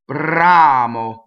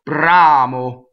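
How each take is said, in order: No difference in how they are said.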